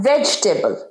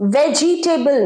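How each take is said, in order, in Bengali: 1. শব্দটি তিন শব্দাংশে বলা হয়। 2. শব্দটি চার শব্দাংশে বলা হয়। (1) "এটার উচ্চারণ ভেজিটেবল" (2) "ভেজিটেবল না"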